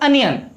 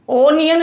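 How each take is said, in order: First: The first vowel sounds like 'uh'. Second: The first vowel sounds like 'oh'. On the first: The speaker calls it right. "Pronunciation होगा अनियन" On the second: The speaker calls it wrong. "ओनियन नहीं बोलते"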